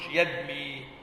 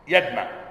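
First: The word ends in a long i sound. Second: The word ends in a long a sound. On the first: The speaker calls it wrong. "ما تقولش يدمي" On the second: The speaker calls it right. "المضارع منه يدمى بفتح الميم"

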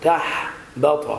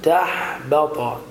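The two takes are said the same way.

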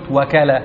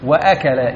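First: The glottal stop after 'wa' is dropped. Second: The glottal stop after 'wa' is pronounced. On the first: The speaker calls it wrong. "ولا قلت وكل" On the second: The speaker calls it right. "ليست همزة وصل"

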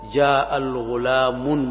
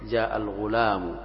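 First: The last word ends with an added n sound. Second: The last word ends without an added n sound. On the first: The speaker calls it wrong. "لا تقول جاء الغلام مثلا، هذا مستكره ممجوج في النطق العربي" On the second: The speaker calls it right. "بل تحذف التنوين فتقول جاء الغلام"

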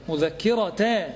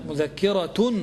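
First: The word ends with an 'a' vowel. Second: The word ends with a 'u' vowel. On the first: "مذكرة بالفتح فقط" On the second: "الوجه الثاني مذكرة بالرفع"

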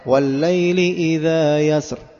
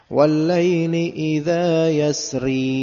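First: The final word ends on a consonant, no vowel. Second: The final word ends with a short i vowel. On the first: The reading stops at the end of the verse. "kalau baca secara dengan waqaf berhenti di ayat keempat" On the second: The reading continues into the next verse. "ketika antum wasal gimana? Bacanya gimana?"

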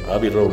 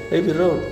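First: It is said with an English-style pronunciation. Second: It is said with a Spanish-style pronunciation. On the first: The speaker calls it right. "No, Abbey Road, me dijo un inglés" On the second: The speaker calls it wrong. "Allá yo dije"

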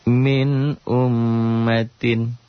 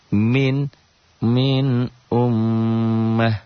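First: The last word ends with its full ending. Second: The last word is cut short at the stop. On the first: The reading continues without stopping. "kita baca secara lengkap aja" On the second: The reading stops at this word. "Kalau dihentikan begitu kan?"

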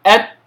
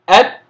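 Both takes have the same delivery.

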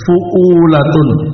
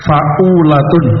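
First: The first vowel is a 'u' sound. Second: The first vowel is an 'a' sound. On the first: The speaker calls it right. "Yang betul fu'ulatun. Fa'nya di dhamma, tidak di fathah" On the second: The speaker calls it wrong. "ditulis fa'ulatun"

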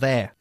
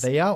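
First: It is said as one single syllable. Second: It is said as two full syllables. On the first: "Con una sola sílaba" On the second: "They are or they're"

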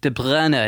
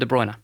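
First: The name has a throaty Flemish sound. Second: The name has a plain English sound. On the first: "in Flemish, in Belgian" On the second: "So I call him"

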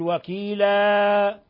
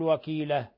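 First: The final vowel is stretched well beyond two beats. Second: The final vowel is cut shorter than two beats. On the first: "لا تقل وكيلا" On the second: "ولا تقل وكيلة"

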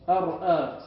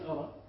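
First: A glottal stop is heard after the r. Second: No glottal stop is heard after the r. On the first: This is the underlying original form. "تقول في الأصل أرأى" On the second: This is the form actually used in speech. "تنقل حركة الهمزة وتحذف وتحذفها"

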